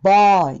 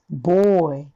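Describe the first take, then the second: First: The first vowel sits between a and o. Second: The first vowel is a full, strong o. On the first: The speaker calls it wrong. "あとオの中間だったら" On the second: The speaker calls it right. "完全なオ。むしろ日本人が思っているよりさらにオがきつくなります"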